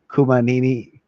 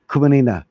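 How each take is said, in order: First: Kumanini ending in 'nee-nee'; mispronounced name. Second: Kumanina ending in 'nee-na'; corrected name. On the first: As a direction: stumble onto 'Kumanini', with a final 'nee' instead of 'na'. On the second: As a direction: say 'Kumanina' with a final 'na'. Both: Real, not acted. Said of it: "should be able to say that".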